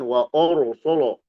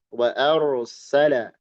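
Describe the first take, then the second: First: All the vowels are heavy and rounded. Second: The opening vowel is light, the r heavy. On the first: The speaker calls it wrong. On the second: The speaker calls it right. "a-nya tipis, a ar ro-nya tebal"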